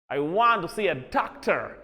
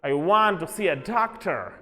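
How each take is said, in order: The two takes are said the same way.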